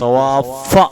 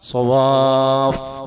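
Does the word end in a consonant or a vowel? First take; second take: vowel; consonant. First: The word ends with a short vowel. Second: The word ends on a consonant. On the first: The speaker calls it wrong. "സവാഫ എന്ന് ഉച്ചരിക്കൂല" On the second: The speaker calls it right. "ശബ്ദ ഒഴിവാക്കി നിർത്തണം"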